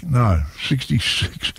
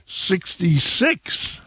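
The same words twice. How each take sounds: First: Said in the usual way. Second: Slow, high drawn-out number call; raffle caller. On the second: Acted. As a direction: stretch it like a bingo caller.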